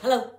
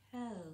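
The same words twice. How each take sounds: First: Hello is said quickly. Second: Hello is said slowly.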